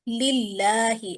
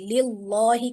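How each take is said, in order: First: The L is pronounced thin and light. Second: The L is pronounced thick and heavy. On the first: The speaker calls it right. "लफ्ज़ अल्लाह का लाम बारीक पढ़ा जाएगा" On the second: The speaker calls it wrong. "कभी भी इसको नहीं पढ़ते"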